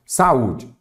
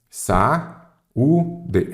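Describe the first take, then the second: First: Said in the usual way. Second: "Sa-u-de" in three separate syllables with pauses; split into syllables. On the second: Shown as a demonstration. ("Sa-u-de" pausado, sílaba por sílaba) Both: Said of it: "separar em sílaba".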